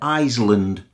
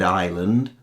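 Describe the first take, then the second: First: The word is said with an S sound. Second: The word is said with no S sound. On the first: The speaker calls it wrong. "quite a few of our students pronounce the S" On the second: The speaker calls it right. "It's a silent consonant"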